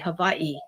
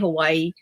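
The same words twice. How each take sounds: First: The middle consonant is a V sound. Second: The middle consonant is a W sound. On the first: "the Hawaiians here, they say Hawaii" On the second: "we say Hawaii"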